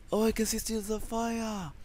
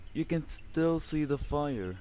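First: Excited slip, words in the wrong order. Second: Slower, careful correction of the phrase you can still see the fire; corrected phrasing. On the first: Real, not acted. Gamer spotting the fire, blurting in jumbled order. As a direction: blurt it out with still before see. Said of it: "What the fuck is wrong with my English?". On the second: Shown as a demonstration. Gamer correcting his own English, slowly and carefully. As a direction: fix the word order deliberately. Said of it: "I said".

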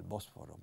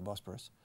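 First: Bosforo said the Spanish way, with an f and an open final o; Spanish pronunciation. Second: Bosporus said the English way, with a p and a reduced ending; English pronunciation. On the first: Teacher showing Spanish students the Spanish name, Bosforo pronounced in Spanish. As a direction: give Bosforo its Spanish vowels and f. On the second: Teacher giving the English name back to Spanish students, Bosporus in English. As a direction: Bosporus in plain English sounds, stress on the first syllable. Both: Shown as a demonstration. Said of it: "I think you say in Spanish".

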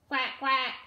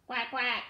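Both takes have the same delivery.

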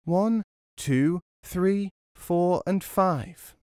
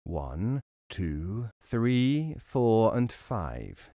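First: High mimicking voice. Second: Robber counting. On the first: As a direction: squeak the numbers back cheekily. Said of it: "started to repeat the robber's words". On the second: Acted. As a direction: count slowly under your breath like a robber. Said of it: "He began to count".

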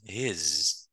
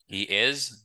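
First: "his" as one syllable, he's; "his" with a drawn-out final z, he's; contracted form. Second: Uncontracted "He is", is fully voiced; full form. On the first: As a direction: run he and is together into "his". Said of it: "Ça, c'est forme contractée". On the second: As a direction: sound both syllables of "He is". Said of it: "ça, c'est forme complète". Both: Shown as a demonstration.

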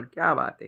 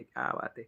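First: Said in the usual way. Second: Soft whispered repeat of क्या बात आहे; whispered echo. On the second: Real, not acted. Echoing his praise of a viewer in a whisper.

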